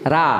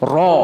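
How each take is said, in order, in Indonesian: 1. Huruf ini dibaca tipis dan ringan. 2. Huruf ini dibaca tebal dan berat. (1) "Kalau ra itu tipis" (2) "Tafkhim itu ro yang harus dibaca tebal"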